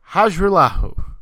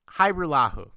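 First: The J sound in the name is pronounced. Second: The J sound in the name is silent. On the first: The speaker calls it wrong. "There's no way I said that right" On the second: The speaker calls it right. "The J is silent"

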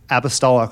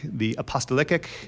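First: The word ends without any extra syllable added. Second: The word has an extra syllable added at the end. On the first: The speaker calls it right. "I'm so used to this word" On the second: The speaker calls it wrong. "he came up with a new way to mispronounce this word"

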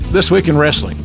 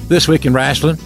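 First: It is said in his plain accent. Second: It is said in a Southern Oklahoma accent.

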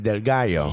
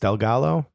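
First: The name is said with Spanish-style pronunciation. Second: The name is said with English-style pronunciation. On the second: "That's why I didn't say it that way"

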